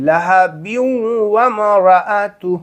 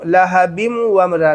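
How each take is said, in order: First: لہب glides through the nose, no closed m; correct nasal join. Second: لہب ending "bimu", no nasal glide; wrong join. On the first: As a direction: hum the end of لہب into ومرأتہ. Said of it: "نہیں". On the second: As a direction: say لہب with a closed m before ومرا. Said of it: "لہب ومرا نہیں". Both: Shown as a demonstration.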